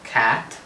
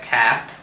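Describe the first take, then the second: Both takes have the same delivery.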